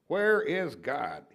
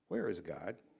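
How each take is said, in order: First: It is said sternest with the voice raised most. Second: It is said sternly at a moderate volume.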